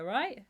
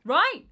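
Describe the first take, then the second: First: Acted, hopeful check for agreement; raised, louder tag question. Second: Much higher, louder repeat check; acted urgent plea for agreement, pitch shooting up; insistent mock question. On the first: Padme's first check in meme. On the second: Padme's second, more anxious check.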